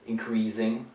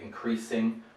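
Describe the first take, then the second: First: The consonant is a z sound. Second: The consonant is an s sound. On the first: The speaker calls it wrong. "they prefer the z to the s" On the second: The speaker calls it right. "whereas we would say increasing"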